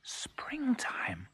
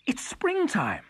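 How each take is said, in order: First: Hushed whisper of wonder; soft, breath-only cuckoo voice. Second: High, voiced cry of realisation; excited exclamation. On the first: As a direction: whisper it softly, as if hardly daring to believe it. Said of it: "whispered the cuckoo". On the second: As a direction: exclaim it with rising joy. Cuckoo realises spring has come. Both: A narrator's reading.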